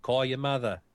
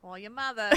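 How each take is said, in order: First: Put-on brusque New Jersey accent. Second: Put-on softer New Jersey accent echo. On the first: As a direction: bark it like a New Jersey mom. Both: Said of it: "in that New Jersey accent".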